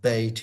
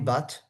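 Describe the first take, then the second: First: The surname is said with an English pronunciation. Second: The surname is said with a French pronunciation. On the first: "or Bate in English" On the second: "I think in French we say Henri Bat"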